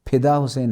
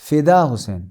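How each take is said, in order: First: The f is made with both lips together. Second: The f is made with teeth on lower lip. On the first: The speaker calls it wrong. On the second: The speaker calls it right.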